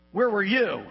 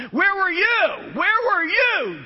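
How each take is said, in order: First: Said in the usual way. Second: Slow, much higher shouted where were you; God's booming question. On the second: Acted. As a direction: hurl the question down as God. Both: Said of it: "he takes two chapters asking".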